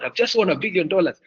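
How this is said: It is said in a lively, excited tone. The listener shares the excitement. The speaker calls it right. "Even you, you're there with me"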